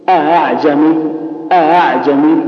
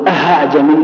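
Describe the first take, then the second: First: أعجمي with the second hamza softened between hamza and alif; eased second hamza. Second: أعجمي with the second hamza turned into an h; h-sound error. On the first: Teacher modelling tas-heel, softened second hamza in أعجمي. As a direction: glide through the second glottal stop of أعجمي. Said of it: "الهمزات المسهلة مثلنا مثل أعجمي". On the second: Teacher showing the wrong tas-heel, an h inside أعجمي. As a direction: say "aha" at the start of أعجمي. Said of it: "ولا تنطقها ها". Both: Shown as a demonstration.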